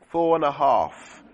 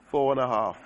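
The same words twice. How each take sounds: First: Slow count. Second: Said in the usual way. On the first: Real, not acted.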